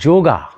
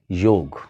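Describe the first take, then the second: First: The word ends with a final vowel sound. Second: The word ends on a consonant, no vowel. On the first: The speaker calls it wrong. "Instead of yoga" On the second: The speaker calls it right. "start saying yog"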